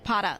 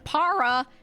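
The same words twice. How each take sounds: First: The R is a single quick tap. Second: The R is an English-style R, not tapped. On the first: The speaker calls it right. "you say like para" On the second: The speaker calls it wrong. "instead of going para"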